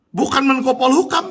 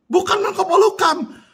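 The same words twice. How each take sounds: First: Said in the usual way. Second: Bukan pushed up high and hard; emphatic repeat. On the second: Real, not acted. Venting at the minister, emphatic high Bukan. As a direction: hit Bukan much higher the second time. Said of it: "repeated higher".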